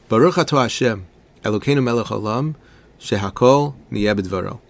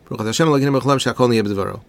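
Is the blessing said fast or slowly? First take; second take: slowly; fast. First: The blessing is said slowly. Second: The blessing is said quickly. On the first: The speaker calls it right. "But imagine a little differently" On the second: The speaker calls it wrong. "I probably just said it faster than I imagine many of us, unfortunately, from time to time say it"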